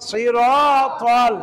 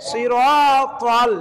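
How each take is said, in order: Both takes have the same delivery.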